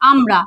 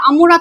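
First: আমরা said as am-ra with no vowel between ম and র; correct pronunciation amra. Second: আমুরা with an extra u sound between ম and র; wrong pronunciation amura. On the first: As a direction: say আমরা cleanly, m straight into r. (সঠিক উচ্চারণ আমরা) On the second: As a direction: say আমুরা, slipping a u after the m. (ভুল উচ্চারণ আমুরা) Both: Shown as a demonstration. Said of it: "আমুরা তো নয়".

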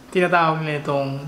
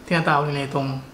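Both takes have the same delivery.

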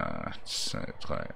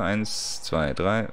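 First: Breathy whispered count, much softer. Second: Said in the usual way. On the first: Real, not acted. Whispering the count while stacking blocks.

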